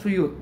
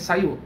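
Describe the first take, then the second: First: The first vowel sounds like 'u'. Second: The first vowel sounds like 'a'. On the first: The speaker calls it wrong. "bukan Suyut" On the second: The speaker calls it right. "tapi Sayut"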